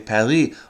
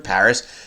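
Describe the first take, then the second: First: It is said with a French pronunciation. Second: It is said with an English pronunciation. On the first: "They don't say Paris" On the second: "We use English pronunciation for Paris"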